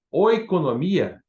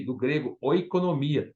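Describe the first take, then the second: First: Oikonomia said slowly and louder, each syllable laid out; slow emphatic Greek word. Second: Said in the usual way. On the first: Shown as a demonstration. Preacher teaching the Greek word oikonomia, slow and emphatic. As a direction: spell out oikonomia slowly for the class. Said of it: "em grego, vem de oikos". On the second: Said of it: "A palavra oikonomia".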